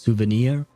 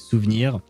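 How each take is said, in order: First: The word has an English pronunciation. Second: The word has a French pronunciation. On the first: "technically in English it would be pronounced souvenir" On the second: "in French it is actually souvenir"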